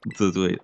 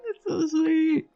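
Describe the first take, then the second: First: Said in the usual way. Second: High squeaky fake cry; mock sob. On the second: Gamer mock-crying at a sweet cutscene, high fake sob. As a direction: pretend to weep over the cute moment.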